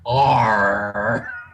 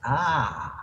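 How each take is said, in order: First: The letter is said with a strong growled R. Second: The letter is said as a soft open ah. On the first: This is how a pirate says it. The speaker calls it wrong. "we're not pirates. It's not R" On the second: This is how relaxed Bostonians say it. The speaker calls it right. "We're just relaxed. It's ah"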